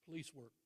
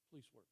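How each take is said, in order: First: Said in the usual way. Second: Much softer repeat of Police work, dropped low; quiet echo. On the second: Real, not acted. Coach repeating Hannah's dream job, soft reflective echo. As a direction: let Police work fall away to near hush.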